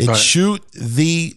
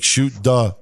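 First: The word 'the' starts with a 'th' sound. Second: The word 'the' starts with a 'd' sound.

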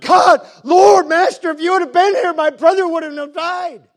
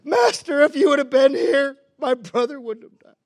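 First: It sounds demanding and accusing. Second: It sounds humble and broken.

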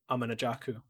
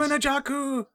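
First: It is said flatly, without exclamation. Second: It is said excitedly, as an exclamation.

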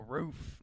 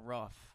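First: The vowel is a long oo sound. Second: The vowel is a short, clipped sound. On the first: This is the Southern way to say it. The speaker calls it right. "Ooh. Not R. Roof. Is a U. Ooh" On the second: This is how people from Northern states say it. The speaker calls it wrong.

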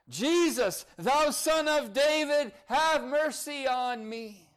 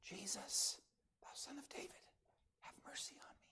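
First: It is said with passion and fervency. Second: It is said flatly, without feeling.

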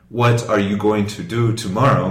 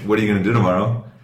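First: Each word is pronounced fully and separately. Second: The words are reduced and run together. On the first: The speaker calls it wrong. "we're not actually saying" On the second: The speaker calls it right. "We're saying"

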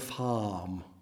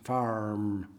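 First: It is said in an English accent, no R. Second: It is said in an American accent with R.

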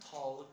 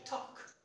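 First: The L sound is pronounced. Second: The L sound is silent. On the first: The speaker calls it wrong. "It is not talk" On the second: The speaker calls it right. "the L is silent, you should not pronounce it"

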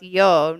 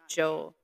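First: The syllable begins with a Y sound. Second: The syllable begins with a J sound. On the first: The speaker calls it right. "it's Yo, not Joe" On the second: The speaker calls it wrong. "not Joe"

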